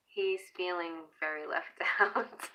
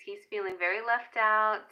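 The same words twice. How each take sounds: First: Breaking into a laugh mid-line; giggling through the last word. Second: Said in the usual way. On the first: Real, not acted. Repeating herself to viewers, laughing.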